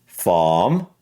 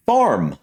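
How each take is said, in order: First: British "Farm" with silent R; British accent. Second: "farm" with a sounded American R; American pronunciation. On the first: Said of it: "And for British". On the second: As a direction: curl a clear R into "farm". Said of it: "how I would generally say it". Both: Shown as a demonstration.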